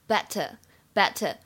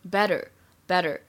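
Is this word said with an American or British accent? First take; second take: British; American. First: It has a crisp t and no final r. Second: It has a soft d-like t and final r. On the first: "英式这样读" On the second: "美式发音当中呢，除了末尾要加卷舌音以外，它呢这个t 会读的有一点像的"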